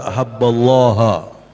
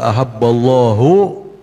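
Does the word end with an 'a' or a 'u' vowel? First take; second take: a; u. First: The word ends with an 'a' vowel. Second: The word ends with a 'u' vowel. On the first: Whoever loves Husain has loved God. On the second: God loves whoever loves Husain.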